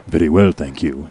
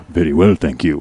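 First: Low, smooth and a bit louder; deep suave reply with a faint accent; Richard's low voice. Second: Low, loud and smooth; deep suave reply with a faint accent; Richard's low voice. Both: Retold or imitated. Coworker answering the girl in a low suave voice. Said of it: "his voice is really low".

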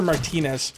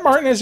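First: Martinez said as mar-TEE-nez; second-syllable stress. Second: Martinez said as MAR-tin-ez; first-syllable stress. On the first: Streamer offering another reading of a follower's name, Martinez as mar-TEE-nez. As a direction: stress the middle of Martinez with a long "ee". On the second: Streamer checking a new follower's name, Martinez as MAR-tin-ez. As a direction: stress the start of Martinez, with a short middle syllable. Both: Shown as a demonstration. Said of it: "Is that Martinez or Martinez?".

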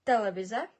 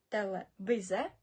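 First: Телевізе with hard и, louder; hard demo. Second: Телевізе slowly, hard и; slow repeat. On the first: Teacher showing the difference, firmer. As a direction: say Телевізе firmly. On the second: Teacher repeating the word slowly for learners. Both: Shown as a demonstration. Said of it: "покажу вам ще різницю".

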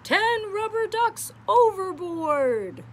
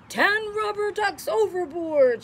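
First: High and slowed shouted call. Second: Loud, high alarmed call; shouting captain. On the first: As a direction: call it out slowly across the deck. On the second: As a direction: bellow it like a ship's captain. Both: Acted. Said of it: "shouts the captain".

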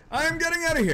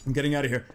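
First: High, insistent "I am getting out"; "I am" pitched high, declaring escape; emphatic. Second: Said in the usual way. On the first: Real, not acted. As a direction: stretch and lift "I am" in alarm. Repeats decision emphatically.

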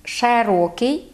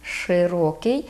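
First: Широкий with the first vowel opened to e, "sherokyi"; slow широкий, e in the first syllable; dialect широкий. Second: Широкий with a clear и in the first syllable; slow literary широкий, "shyrokyi"; careful широкий, no e in the first syllable; standard широкий. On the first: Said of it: "ми кажемо". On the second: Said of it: "в літературній мові норма". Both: Shown as a demonstration.

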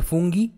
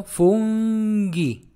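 First: Said in the usual way. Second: "fungi" stretched very slowly, hard g; drawn-out model. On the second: Shown as a demonstration. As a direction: draw out both syllables of "fungi". Teacher draws out the word.

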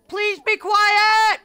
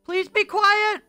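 First: Slow, loud plea. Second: Loud plea. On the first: Repeated plea, slower take. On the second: Repeated plea, second take. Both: Real, not acted.

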